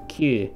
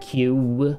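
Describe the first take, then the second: First: The vowel ends cleanly without a glide. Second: The vowel ends with a w-like glide. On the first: The speaker calls it right. "It's Q" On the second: The speaker calls it wrong. "it's not Q. There's no W on the end there"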